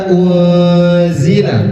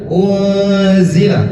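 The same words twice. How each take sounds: No difference in how they are said.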